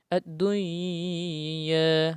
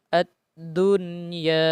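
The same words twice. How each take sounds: First: The n sound merges into the following y. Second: The n sound is pronounced clearly before y. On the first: The speaker calls it wrong. "Tidak boleh dibaca ad-dunya. Nah, itu salah" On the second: The speaker calls it right. "Tapi cara membacanya ad-dunya"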